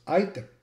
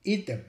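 First: Item with a long English I, like "eye"; English-style item, opening on an "eye" sound; English pronunciation. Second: Item with an "ee" vowel, "EE-tem"; Latin-style item, first vowel as in "eat"; Latin pronunciation. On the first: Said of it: "we can see it's pronounced item". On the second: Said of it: "in Latin, it would be pronounced". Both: Shown as a demonstration.

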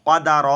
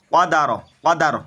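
First: "কদা র" with the last syllable held long. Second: "কদা র" said quickly, final syllable short; quick recitation. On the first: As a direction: stretch out "কদা র", lingering on র. Slow take before quick one. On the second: Teacher showing learners the quick reading, short "কদা র". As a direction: run "কদা র" together without stretching the end. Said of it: "তাড়াতাড়ি". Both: Shown as a demonstration.

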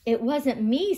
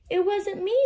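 First: Plain-ish cheetah voice. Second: Higher kangaroo voice. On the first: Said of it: "said Cheetah". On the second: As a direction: say it high as the kangaroo. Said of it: "said Kangaroo". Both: Acted.

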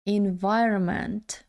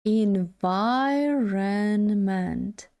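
First: "Environment" run together more, still careful; quicker take. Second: "Environment" stretched syllable by syllable, second syllable stressed; very slow demonstration. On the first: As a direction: join up the syllables of "Environment". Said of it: "Якщо дуже швидко". (швидша вимова "Environment", злито) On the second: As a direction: draw "Environment" right out for learners. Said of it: "наголос на другому складі". (дуже повільно, по складах "Environment") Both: Shown as a demonstration.

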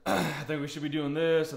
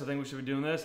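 First: Pushy parent. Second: Said in the usual way. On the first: Retold or imitated. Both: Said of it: "parents that get upset".

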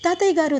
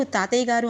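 First: High urgent cry for grandfather; alarmed call. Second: Said in the usual way. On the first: Acted. Granddaughter cries out at collapse.

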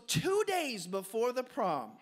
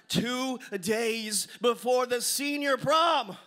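First: Said in the usual way. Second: Loud, drawn-out proclamation; big slow build-up to the punchline; dramatic emphasis. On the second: Real, not acted. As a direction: boom it slowly, word by word, to the crowd. Dramatic repeat for the audience.

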